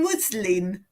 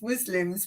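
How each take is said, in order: First: "muslin" said with a clear N ending; muslin with final N. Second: "Muslims" said with an MZ ending; Muslims for muslin. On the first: Correcting own slip to chat viewers, careful final N in "muslin". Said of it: "but it's muslin". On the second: Admitting own habit to chat viewers, "Muslims" ending in MZ. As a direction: say "Muslims", closing on M and Z. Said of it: "I still think it's Muslims". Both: Shown as a demonstration.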